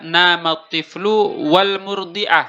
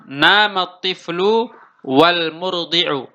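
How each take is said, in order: First: The last word ends with the syllable ah. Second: The last word ends with the vowel u. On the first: One person did it together with the other. "wawunya di sini adalah wawu ma'iyah" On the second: Both people share the same action equally. "wawunya di sini adalah wawu atof"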